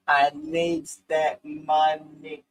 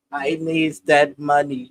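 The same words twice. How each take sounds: First: Very slow, drawn-out movie voice; hammed-up slow movie quote; Vivica impression. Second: Slow quoted movie line; slow Set It Off quote; Vivica impression. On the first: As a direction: stretch every word like Vivica in Set It Off. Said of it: "You actually look like her". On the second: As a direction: drag out the line like the movie character. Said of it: "What Vivica saying, set it off".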